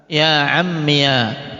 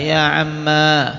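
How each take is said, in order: First: The word ends in a -iya syllable. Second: The word ends in a long a vowel. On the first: "Ya-nya diharokati fathah" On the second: "alifnya tetap dibaca"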